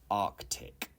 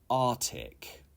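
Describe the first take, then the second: First: A k sound follows 'ar'. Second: There is no k sound after 'ar'. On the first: The speaker calls it right. "You need to pronounce the C, the K" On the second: The speaker calls it wrong. "it is not correct to say Arctic"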